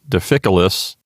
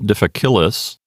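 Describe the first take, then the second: First: The stress is on the third-from-last syllable. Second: The stress is not on the third-from-last syllable. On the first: The speaker calls it right. "stress or emphasis is on the third syllable from the end" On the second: The speaker calls it wrong. "It's not difficilus"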